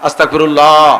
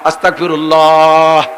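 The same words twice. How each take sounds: First: The word is drawn out a little. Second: The word is drawn out the most. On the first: "দ্বিতীয়বার আর একটু বড়" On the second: "তৃতীয়বার আর একটু বড়"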